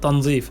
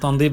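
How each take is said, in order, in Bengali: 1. মাঝের ব্যঞ্জনটি z ধ্বনি। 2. মাঝের ব্যঞ্জনটি d ধ্বনি। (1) "উচ্চারণটা সঠিক হচ্ছে তনজিফ" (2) "উচ্চারণ তনদিফ বলে"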